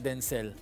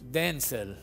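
First: The stress is on the second syllable. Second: The stress is on the first syllable. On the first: It names the son. "Y cuando me llama a mí, decía Denzel" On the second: It names the father. "Cuando llamaba a su marido, le decía Denzel"

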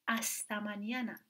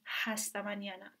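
First: It begins directly with a vowel sound. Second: It begins with an audible h sound. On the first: The speaker calls it right. "میخونیم استمانیانه، اون صدای اچه هیچ وقت تلفظ نمیشه" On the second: The speaker calls it wrong. "ما اینو نمیخونیم هستمانیانه"

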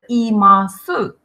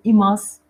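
First: The final u vowel is pronounced. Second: The final u vowel is dropped. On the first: "Глагол имас, имасу" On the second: "то у часто редуцируется, не произносится, поэтому говорим имас"

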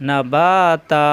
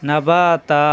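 Both takes have the same delivery.

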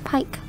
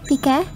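First: The name is pronounced the English way. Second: The name is pronounced the Japanese way. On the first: "I'm pronouncing it in English" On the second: "as in the Japanese pronunciation"

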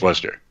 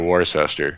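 First: The name is pronounced the English way, not as spelled. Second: The name is pronounced following its spelling. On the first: This is how locals say the name. The speaker calls it right. "we pronounce it more like the English do" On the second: This is how outsiders say the name. The speaker calls it wrong. "Most people would say Worcester"

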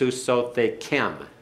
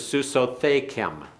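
First: The stress falls on the last syllable. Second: The stress falls before the last syllable. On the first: The speaker calls it right. "The accent's on the last syllable" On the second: The speaker calls it wrong. "I put the accent on the wrong place"

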